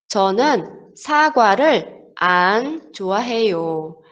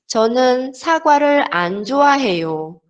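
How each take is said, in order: First: There is a pause before 좋아해요. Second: The words run together without a pause.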